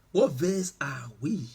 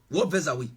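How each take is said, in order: First: "What verse are we?" ending on a clear rise; rising repeat. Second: Said in the usual way. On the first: Real, not acted. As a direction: ask again, lifting the last word "we". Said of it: "asks again, rising". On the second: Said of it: "asks the congregation twice".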